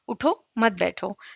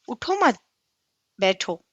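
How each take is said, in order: First: The pause comes right after उठो. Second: The pause comes right after मत.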